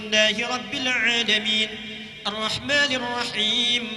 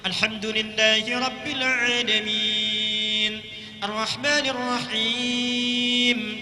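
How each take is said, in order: First: It is recited fast with short vowels. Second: It is recited at a medium, moderate pace.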